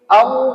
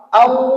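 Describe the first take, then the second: The two takes are said the same way.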